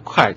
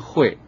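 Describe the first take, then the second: First: The syllable is said as kuài, with k. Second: The syllable is said as huì, with h. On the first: The speaker calls it right. "那读快就是破读了" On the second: The speaker calls it wrong. "这个快不读成会"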